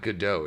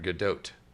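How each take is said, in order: First: The final T is silent. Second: The final T is pronounced. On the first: The speaker calls it wrong. "It's not" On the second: The speaker calls it right. "You pronounce the T apparently"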